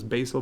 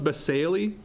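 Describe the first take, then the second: First: The word is said with two syllables. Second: The word is said with three syllables. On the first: "I think some refer to as basal" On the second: "this was pronounced basale"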